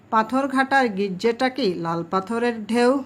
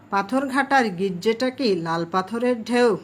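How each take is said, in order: Both takes have the same delivery.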